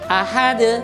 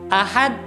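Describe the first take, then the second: First: The final d ends with an echoing bounce. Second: The final d stops with no echoing bounce. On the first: The speaker calls it right. "bacaan yang benar" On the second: The speaker calls it wrong. "dia meniadakan qalqalahnya"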